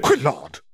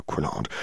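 First: Sharp, high snap at the quill; snapped. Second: Soft, low scolding of the quill; low reprimand. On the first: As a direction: bark the name sharply. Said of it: "Skeeter snapped". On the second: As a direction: mutter a stern rebuke. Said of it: "Skeeter reprimand the quill". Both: A narrator's reading.

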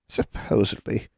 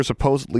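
First: Crooned. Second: Said in the usual way. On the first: A narrator's reading. Hag echoes the girl's word "Supposedly", crooning. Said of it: "crooned Anya".

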